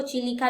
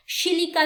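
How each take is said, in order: First: चिलिका begun with a "ch" sound; CH pronunciation. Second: शिलिका begun with a soft "sh" sound; soft SH pronunciation. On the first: Teacher showing students the other accepted name, चिलिका with "ch". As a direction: say चिलिका with CH at the start, not SH. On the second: Teacher showing students one way to say the lake's name, शिलिका with "sh". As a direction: say शिलिका with SH at the start, not CH. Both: Shown as a demonstration. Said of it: "सबका अपना अपना pronunciation है".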